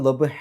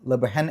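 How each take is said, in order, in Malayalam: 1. ഇത് നീണ്ട സ്വരത്തിൽ അവസാനിക്കുന്നു, 'n' ഇല്ല. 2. സ്വരത്തിനു ശേഷം 'n' ശബ്ദത്തോടെ അവസാനിക്കുന്നു. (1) "എന്നാണ് പറയുക" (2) "എന്നല്ല"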